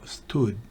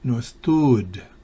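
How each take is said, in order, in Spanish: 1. La vocal se dice corta. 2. La vocal se dice larga. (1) "la U tiene un solo puntico" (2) "Si tuviera el doble puntico la U sería"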